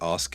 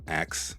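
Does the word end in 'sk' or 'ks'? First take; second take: sk; ks. First: The word ends with an s then k sound. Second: The word ends with a k then s sound. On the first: "you could take a word like ask" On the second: "with the S and the K swapping places"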